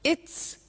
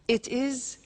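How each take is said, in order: First: It is said as one contracted word. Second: It is said as two full words.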